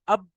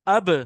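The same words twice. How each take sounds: First: The final b stops flat without any echo. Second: The final b bounces with a slight echo. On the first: The speaker calls it wrong. "अब आप इसको अब पढ़ेंगे तो गलत है वो" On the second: The speaker calls it right. "आपको टकराना पड़ेगा"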